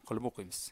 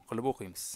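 Both takes have the same delivery.

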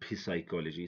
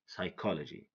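First: A P sound is heard before the S at the start. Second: No P sound is heard before the S at the start. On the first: The speaker calls it wrong. "Don't say psychology" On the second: The speaker calls it right. "say psychology"

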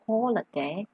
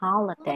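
First: It is said in a British accent. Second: It is said in an American accent.

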